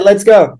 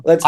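First: Excited urging. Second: Said in the usual way. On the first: Real, not acted. Urging the host to go on.

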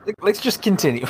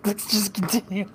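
First: Giggling through the words; barely holding back laughter; laughing. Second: Laughing. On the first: Laughing, trying to move on. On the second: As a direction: still giggling, trying to compose. Repeat through laughter. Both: Real, not acted.

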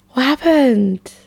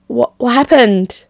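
First: Slow, breathy stage whisper; hushed, slow whisper. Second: Said in the usual way. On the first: Acted. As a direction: whisper it like a secret. Repeats question, then whispers it.

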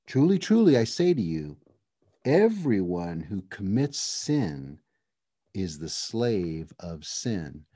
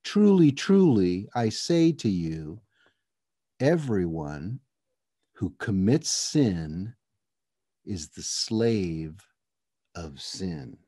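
First: Said in the usual way. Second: Drawn out slowly, fading to near silence; slow solemn emphasis. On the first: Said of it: "anytime he repeats himself like that". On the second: Shown as a demonstration. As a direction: lean in, every word slow and weighty. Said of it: "Hey, pay attention, lean in here".

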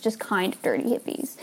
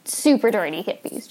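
First: Just kind of dirty hippies, just pushed and rising; just stressed and the line dropped softer. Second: Super lifted with a rise; super dirty hippies with the word super rising; stress on super. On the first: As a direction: correct yourself by hitting just. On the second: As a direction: lean on super, then ease off. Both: Real, not acted.

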